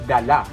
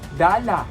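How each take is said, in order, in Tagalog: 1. Ang huling pantig ang may diin at binibigkas nang mabilis. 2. Ang unang pantig ang may diin at binibigkas nang mahaba. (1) "Dapat ... dala. Yun ay mabilis" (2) "Hindi siya ... dala"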